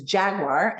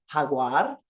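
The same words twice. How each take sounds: First: Jaguar with an English J sound, as in jam; English "jaguar", starting like "jet"; English pronunciation. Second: Jaguar said the Spanish way, J as a breathy H; Spanish "jaguar", opening on an H sound; Spanish pronunciation. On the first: Shown as a demonstration. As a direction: say "jaguar" in English, hard J at the front. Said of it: "Do you have this letter in your home language". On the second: Acted. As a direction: answer "jaguar" as "hagwar", like a Spanish speaker. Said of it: "Spanish speakers are gonna say".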